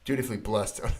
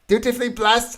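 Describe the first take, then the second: First: It is read in his normal voice. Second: It is read in a grand emperor voice.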